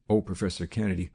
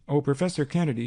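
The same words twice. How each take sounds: First: Said in the usual way. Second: Calling out. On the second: A narrator's reading. Cynthia calls Kennedy back as he leaves, calling out. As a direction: call after him down the hall. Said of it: "she called".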